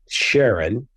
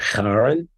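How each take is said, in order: First: The name begins with an sh sound. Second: The name does not begin with an sh sound. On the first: This honors the discoverer's wife. "it's pronounced like an S H" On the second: This follows the original mythology. "the proper pronunciation is something like Charon"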